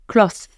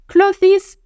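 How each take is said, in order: First: The th and final -es sounds are dropped. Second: The th and final -es sounds are pronounced. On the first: The speaker calls it right. "Tu ne dis pas le th et E S à la fin" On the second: The speaker calls it wrong. "ça ne se dit pas clothes"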